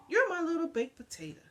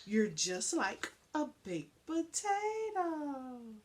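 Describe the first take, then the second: First: Playful, brisk. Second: Fond, slow. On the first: Lady's morning greeting to dog. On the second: Lady tells dog fondly. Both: A narrator's reading.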